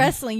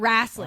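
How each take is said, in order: First: The word is said in a plain accent. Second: The word is said in a Southern-style accent. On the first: The speaker calls it wrong. "you're not wrestling" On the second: The speaker calls it right. "You gotta have the accent"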